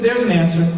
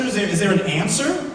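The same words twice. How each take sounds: First: Low, settled statement closing on "answer"; retold firm statement. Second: "answer" lifted in a rising question; retold questioning. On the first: Interviewer answering the new hire, firm low "answer". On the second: New hire asking his interviewer, questioning rise on "answer". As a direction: ask it tentatively, stumbling on "is there", rising on "answer".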